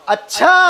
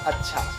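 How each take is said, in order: First: It is said with a strongly twisted inflection. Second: It is said plainly, without twist.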